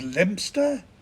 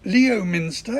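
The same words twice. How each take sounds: First: It is said in a shortened form. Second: It is said as written, syllable by syllable.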